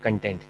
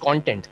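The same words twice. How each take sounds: First: The stress is on the second syllable. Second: The stress is on the first syllable. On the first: It means satisfied. The speaker calls it wrong. "not content. Content means satisfied" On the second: It refers to the subject matter. The speaker calls it right. "It's content"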